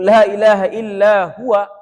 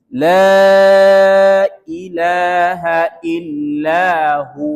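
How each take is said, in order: First: The final word is the full form huwa. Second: The final word is a long drawn-out hu. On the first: The speaker calls it wrong. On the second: The speaker calls it right. "Waqaf huwa maka dibaca panjang"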